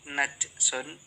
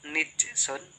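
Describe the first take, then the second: First: The n takes a and the j has none. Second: The n takes i and the j has none. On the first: "ketiga najsun" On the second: "keempat nijsun"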